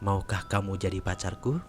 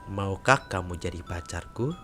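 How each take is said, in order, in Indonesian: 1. Pertanyaan itu diucapkan dengan cepat dan spontan. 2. Pertanyaan itu diucapkan dengan pelan dan lembut. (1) "terlalu cepat dan spontan" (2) "suaraku lebih terdengar pelan-pelan"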